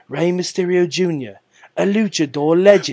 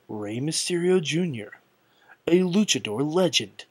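First: It is said in an imitated British accent. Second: It is said in the speaker's ordinary accent.

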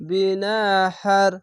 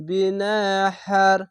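The two takes are said the same way.

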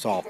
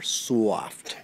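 First: The word is said plainly, without extra emphasis. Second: The word is drawn out with strong emphasis. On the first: The blankets are merely soft. "they're not just soft" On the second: The blankets are exceptionally soft. "I'm saying it that way for a reason"

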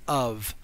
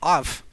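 First: The word ends with a V sound. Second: The word ends with an F sound. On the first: The speaker calls it right. "the F isn't pronounced like an F. It's pronounced like a V" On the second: The speaker calls it wrong. "We could pronounce it "off,""

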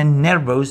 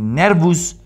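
First: The final vowel is a full 'o'. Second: The final vowel is a full 'u'. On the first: "ni nervos" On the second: "ni nervus"

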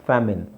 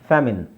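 The two takes are said the same way.

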